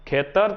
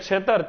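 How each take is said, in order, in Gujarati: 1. શબ્દ kh અવાજથી શરૂ થાય છે. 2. શબ્દ chh અવાજથી શરૂ થાય છે.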